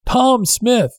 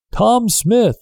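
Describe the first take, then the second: First: A second shout across the water; shouted again. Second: Shouting a name into the night; shouted. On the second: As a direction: call his name out to the far boat. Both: Acted. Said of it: "the man shouted".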